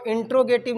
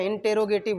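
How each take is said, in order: First: इंट्रोगेटिव clipped to intro-gative, as a teacher shows it; wrong pronunciation. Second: इंटेरोगेटिव in full, inter-ro-gative, as the right form; correct pronunciation. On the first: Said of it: "इसको इंट्रोगेटिव नहीं बोलते हैं". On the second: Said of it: "इंटेरोगेटिव बोलते हैं". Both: Shown as a demonstration.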